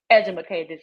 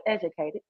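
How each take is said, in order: First: "edumacated" with an extra "ma" syllable; playfully mangle educated as "edumacated"; jokey mispronunciation. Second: Said in the usual way. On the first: Shown as a demonstration. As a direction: say "edumacated", ed-u-ma-cated, as a joke word. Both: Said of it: "some of y'all might say".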